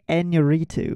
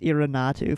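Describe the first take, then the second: First: The r and n sounds are in their normal places. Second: The r and n sounds are swapped around. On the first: The speaker calls it right. "So it's actually Iñárritu" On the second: The speaker calls it wrong. "I thought it was Iñárritu for some reason. That is incorrect"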